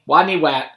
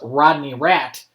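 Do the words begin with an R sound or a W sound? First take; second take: W sound; R sound. First: The R sounds are replaced with W sounds. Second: The words begin with clear R sounds. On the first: This is how the character himself says his name. The speaker calls it wrong. "he couldn't pronounce his R's" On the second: This is the name as it really is. The speaker calls it right. "His real name was Rodney Rat"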